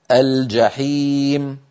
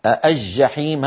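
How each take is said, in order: First: الجحيم very slowly as "al-jaheem", L clearly sounded; classical izhar. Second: الجحيم slowly as "aj-jaheem", L lost in a doubled j; colloquial merging. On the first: Shown as a demonstration. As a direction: say الجحيم with a distinct L before j. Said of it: "الفصيح أن نقول". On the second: Retold or imitated. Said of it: "هذا من كلام العامة".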